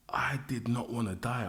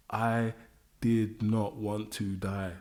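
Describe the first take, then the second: First: Said in the usual way. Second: "I did not want to die" said very slowly, each word weighed; emphatic, slow. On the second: Shown as a demonstration. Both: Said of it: "I cannot emphasize it enough".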